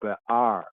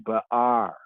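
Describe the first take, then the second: First: The word is said with each part separated. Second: The word is said with each part separated.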